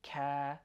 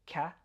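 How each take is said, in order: First: Ka with the a held; a drawn-out "kaa"; ka, vowel lengthened; longer ka. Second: Ka with a clipped vowel; a brief "ka"; ka, cut off quickly; short ka. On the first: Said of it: "just a little bit longer". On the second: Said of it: "a little bit longer than ka". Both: Shown as a demonstration.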